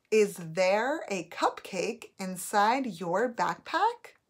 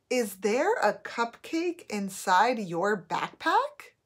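First: Slow, rising at the end on backpack; questioning tune. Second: Slow question, rising at the end on backpack; questioning tune. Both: Shown as a demonstration. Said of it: "Think of how I'm saying that sentence".

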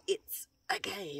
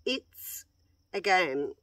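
First: High, slow, hushed eerie echo; creepy ghost voice. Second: Said in the usual way. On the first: Retold or imitated. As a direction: mimic the creepy spirit voice. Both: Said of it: "Oh, it was so creepy".

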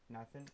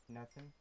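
The two takes are said the same way.

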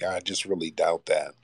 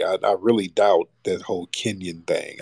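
First: Whispered, half to himself; whispered aside. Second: Said in the usual way. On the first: Real, not acted. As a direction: mutter the doubt under your breath as an aside. Repeats doubt, then whispers it.

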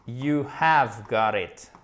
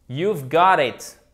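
First: "You have got it" said slowly, with "have" in full; uncontracted form. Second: "You've got it" drawn out and loud; slow model. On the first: Teacher contrasting the full form with "You've got it". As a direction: spell out the full form, word by word. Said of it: "une forme contractée". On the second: Teacher modelling "You've got it" slowly and loudly. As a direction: stretch every word for the learners. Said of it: "model sentence, slow". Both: Shown as a demonstration.

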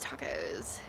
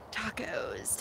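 First: Lower whisper. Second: Whisper. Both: Real, not acted. Musing for a taco joke.

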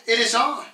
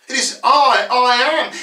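First: Said in the usual way. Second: "I" punched higher and louder; emphatic I. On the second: Shown as a demonstration. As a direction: lean hard on each "I". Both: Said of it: "It's emphatic".

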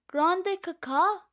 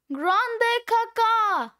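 First: Said in the usual way. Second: High, drawn-out gleeful cry; big exultant exclamation, stretched out; triumphant shout. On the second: Acted. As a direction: belt out the punchline slowly. Triumphant punchline, shouted slowly.

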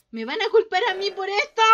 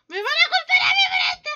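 First: Raised, loud worried cry; panicked wail. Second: Very high, loud, fast squeal; hysterical shriek. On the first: Player fearing blame for the mistake, panicked wail. Fears being blamed in game. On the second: Player fearing blame for the mistake, hysterical shriek. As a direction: shriek it at top speed in comic panic. Repeats blame fear, far higher. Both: Pretend.

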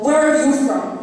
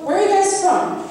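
First: Acted angry comeback, throwing the question back; confrontational, pent-up anger let out; angry retort. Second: Lightly voiced nosy stranger, higher pitch; lightly acted, higher-pitched small-talk question; casual nosy stranger. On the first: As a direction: fire the question back, fed up. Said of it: "When I finally do break and say". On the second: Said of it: "when somebody asks my friend and I".

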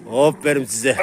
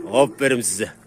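Both takes have the same delivery.

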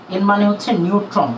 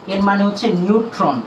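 The two takes are said the same way.

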